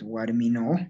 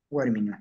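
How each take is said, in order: First: "Guarmino" with the final o drawn out; "Guarmino" ending in a long oo; stretched final O. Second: "Guarminu" with a short final vowel; "Guarminu", last syllable kept brief; cut-short ending. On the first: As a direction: hold the last vowel of "Guarmino". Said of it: "estoy estirando". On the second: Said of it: "O lo cortamos". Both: Shown as a demonstration.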